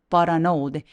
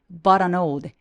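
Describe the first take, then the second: The two takes are said the same way.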